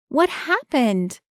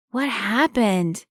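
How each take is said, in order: First: Higher, slow, called-out woman's question; woman calling out. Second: Put-on slow, slightly higher boy's question; curious boy. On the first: Acted. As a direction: call out as Marie, worried. Marie calls out running over. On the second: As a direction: ask as a concerned kid. Boy asks about the wound.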